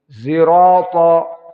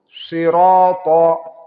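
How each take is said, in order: First: It begins with a sound blended toward z. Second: It begins with an emphatic, heavy s sound. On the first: This is the reading of Khalaf from Hamzah. "maka ismam menjadi zai" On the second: This is the reading of the majority of reciters. "Kita baca al-jumhur"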